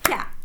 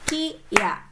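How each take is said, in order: First: One merged syllable, kya, in one beat. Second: Two separate syllables, ki then ya. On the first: The ya is written small. "satu bunyi, satu ketukan" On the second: The ya is written full size. "Itu kalau berdiri sendiri ki ya"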